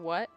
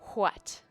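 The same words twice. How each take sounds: First: The opening wh sound is said casually. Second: The opening wh sound is carefully enunciated. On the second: "I don't normally say it like that"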